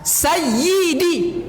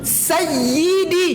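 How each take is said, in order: First: The y sound is held and doubled. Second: The y sound is held and doubled.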